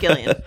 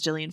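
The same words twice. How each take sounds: First: The name begins with a hard G sound. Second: The name begins with a soft J sound. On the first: The speaker calls it right. "In this house, we pronounce the hard G" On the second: The speaker calls it wrong. "We'll never, ever make that mistake again"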